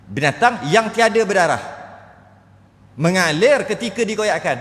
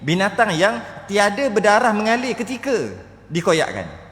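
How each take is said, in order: First: There is a pause after 'berdarah'. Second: There is no pause after 'berdarah'. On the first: The animal has no blood at all. The speaker calls it wrong. "Eh bukan gitu" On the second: The animal has no flowing blood when cut. The speaker calls it right. "Maksud dia gini"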